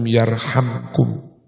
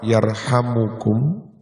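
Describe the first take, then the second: First: The word has three syllables, without 'mu' inside. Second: The word has four syllables, with 'mu' inside. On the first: It is the answer to a command. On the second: It is a prayer: may he have mercy on you.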